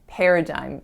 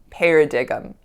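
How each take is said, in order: First: The word has its usual standard pronunciation. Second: The word is sounded out letter by letter. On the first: The speaker calls it right. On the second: The speaker calls it wrong.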